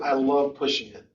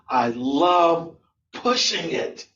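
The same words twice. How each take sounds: First: It is said plainly, without much vocal variety. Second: It is said with exaggerated, lively vocal variety. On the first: "You said" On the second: "You could have said"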